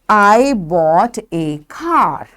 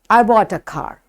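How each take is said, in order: First: The word 'a' has a full, stressed vowel. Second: The word 'a' is quick and unstressed. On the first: "when we say in strong form, we say A" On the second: "But when we use weak form"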